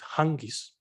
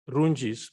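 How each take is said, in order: First: The name begins with a breathy, H-like sound. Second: The name begins with a plain English R sound. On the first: This is how people familiar with the place say it. The speaker calls it right. "those who know it say it's" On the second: This is how an outsider would naturally say it. The speaker calls it wrong. "I would wish to pronounce as"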